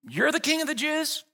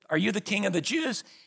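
First: It is asked with a sarcastic edge. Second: It is asked as a plain question.

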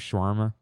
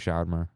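First: It is said with an American English pronunciation. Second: It is said with an Arabic-style pronunciation. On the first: This is how most people around here say it. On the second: This is how the speaker's own community says it.

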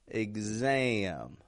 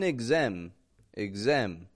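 First: The vowel glides with a twangy nasal quality. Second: The vowel stays flat without a gliding movement. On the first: The speaker calls it right. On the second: The speaker calls it wrong.

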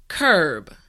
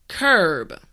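No difference in how they are said.

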